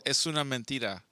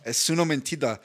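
First: "es una mentira" in clean Spanish, es-OO-na men-TEE-ra; Spanish correction. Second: "Es una mentira" copied with an English r, mentida; learner repeating Spanish. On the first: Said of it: "on español". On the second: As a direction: echo "Es una mentira" with an anglicized r. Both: Shown as a demonstration.

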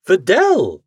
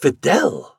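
First: Higher, louder cry of her name; alarmed cry. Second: Gasp. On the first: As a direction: cry out in protest. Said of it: "Again I cried". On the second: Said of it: "I gasped". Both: A narrator's reading.

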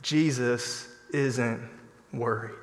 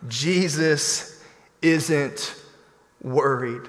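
First: Jesus isn't worried, said quietly and slowly; hushed, slow comfort; soft slow reassurance. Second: Jesus isn't worried, each word drawn out slowly; slow preacher's emphasis; slow emphatic stress. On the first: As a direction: drop the voice and reassure gently. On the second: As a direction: lean on Jesus and hold the pause before worried. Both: Shown as a demonstration. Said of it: "I wanna encourage you".

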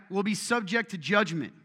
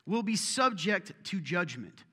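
First: "subject" pressed higher and louder; emphatic rereading of "Will be subject to judgment"; stress on subject. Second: "will be subject to judgment" slowed, each word weighted; slower solemn repeat of the warning; slow emphasis. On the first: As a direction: lean hard on "subject" and "judgment". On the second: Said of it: "what's judgment again?". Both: Shown as a demonstration.

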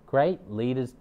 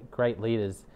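Both takes have the same delivery.

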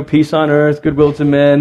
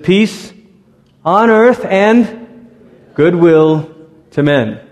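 First: Said in the usual way. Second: Slow, lilting rise on earth, falling on goodwill; sing-song the King James Peace on earth like a card; Christmas card recital. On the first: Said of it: "this phrase". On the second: Shown as a demonstration. Pastor reciting the familiar Christmas card line, lilting and slow. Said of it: "the Christmas card version from the King James is".

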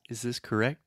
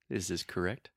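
First: "correct" with a clear final T; released T. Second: "correct" with the final T held; stop T. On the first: Teacher giving the first version of "correct". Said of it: "if someone says". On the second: Teacher giving the second version of "correct". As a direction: end "correct" on a silent stop T. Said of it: "Another example". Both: Shown as a demonstration.

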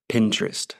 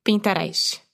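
First: "Pinterest" said in American English, Pin-trust; American accent. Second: "Pinterest" said the Brazilian way, pin-ta-rice; Brazilian Portuguese pronunciation. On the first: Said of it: "Eu vou falar com o sotaque americano". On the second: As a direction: read "Pinterest" with a Brazilian accent. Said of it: "como os brasileiros falam". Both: Shown as a demonstration.

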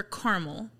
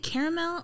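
First: Caramel as CAR-mul; two-syllable caramel. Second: Caramel as CARE-uh-mel; three-syllable caramel. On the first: Host offers the other pronunciation, caramel as CAR-mul. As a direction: drop the middle vowel of caramel, CAR-mul. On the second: Host asks which pronunciation, caramel as CARE-uh-mel. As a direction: say caramel with a full middle syllable. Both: Shown as a demonstration. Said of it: "Do you pronounce it caramel or caramel".

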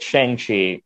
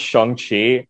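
First: First syllable of "Shang-Chi" with an A sound, like "shang"; "Shang-Chi" rhyming its first syllable with "hang"; mispronounced Shang-Chi. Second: First syllable of "Shang-Chi" said "shong", with an O; "Shang-Chi" with the A sounded as an O; correct Shang-Chi pronunciation. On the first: Real, not acted. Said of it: "or, sorry, it's actually pronounced". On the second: Shown as a demonstration. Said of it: "it's actually pronounced".

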